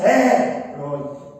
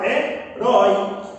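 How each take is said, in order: First: The stress is on the first syllable. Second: The stress is on the last syllable. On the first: The speaker calls it wrong. "Eu não falo assim" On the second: The speaker calls it right. "Eu falo, ... Então a sílaba tônica pronunciada é a última"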